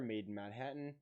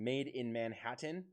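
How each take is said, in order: First: The middle consonants are dropped and slurred together. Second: The middle consonants are all clearly pronounced. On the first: The speaker calls it wrong. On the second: The speaker calls it right.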